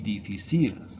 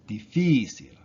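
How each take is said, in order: First: The stress is on the last syllable. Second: The stress is on the second-to-last syllable. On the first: The speaker calls it wrong. "if this didn't have a accent, it would be difícil, but because it ends in a, a consonant" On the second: The speaker calls it right. "they have an accent written"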